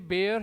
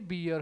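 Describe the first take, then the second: First: The vowel sounds like 'air'. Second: The vowel sounds like 'ear'. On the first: The word is used as a verb. "ये बेयर है" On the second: The word is used as a noun. "ये बियर है"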